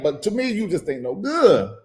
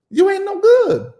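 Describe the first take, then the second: First: Said in the usual way. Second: "You ain't no good" squealed far higher, good stretched out. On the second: Acted. To the absent parent, mocking: "You ain't no good" squealed high. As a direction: shriek it like a mocking cry.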